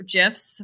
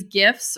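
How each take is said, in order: First: "gifs" with a soft G, like "jifs". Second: "gifs" with a hard G as in gift. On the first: Host offering the other way, "gifs" said like "jifs". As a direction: say "gifs" starting with a J sound. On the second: Host offering one way to say it, "gifs" with hard G. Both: Shown as a demonstration. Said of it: "whatever you say it".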